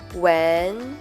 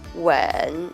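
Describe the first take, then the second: First: The pitch rises from mid to high. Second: The pitch dips low, then rises. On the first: "I will pronounce the second tone first" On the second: "third tone"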